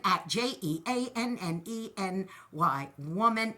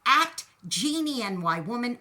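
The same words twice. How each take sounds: First: J E A N N E said letter by letter; J E A N N E spelt, each letter separate; spelling the name out. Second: Said in the usual way. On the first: Shown as a demonstration.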